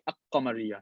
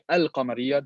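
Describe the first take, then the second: First: The L sound is dropped and merged. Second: The L sound of the article is pronounced. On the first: The speaker calls it wrong. "You don't say" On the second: The speaker calls it right. "You say"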